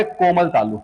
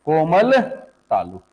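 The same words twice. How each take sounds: First: Said in the usual way. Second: Stretched out, with a gap between words; slow emphatic repeat. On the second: Real, not acted. Teacher repeating the key term for students, slow and deliberate. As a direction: draw the term out slowly.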